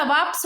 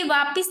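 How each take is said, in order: First: वापस as 'vaaps', no 'i' after the p; वापस closed up as 'vaa-p's'; correct, without i. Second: वापिस with 'i' after the p; two clear syllables in वापिस, ending '-pis'; mispronounced with i. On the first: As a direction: say वापस with p running into s. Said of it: "वापस होता है". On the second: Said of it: "ऐसे ही वापिस नहीं होता". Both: Shown as a demonstration.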